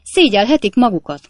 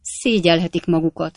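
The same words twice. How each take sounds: First: Loud, indignant rebuke; sharp landlady's telling-off; angry scolding. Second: Lightly muffled husband's scolding; understated rebuke as from under the bedclothes; mild, dulled grumble. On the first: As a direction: scold them at full voice. Landlady scolds the lodger's guests. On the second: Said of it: "olyan tompán, mint a távoli dunyhák alól". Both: A narrator's reading.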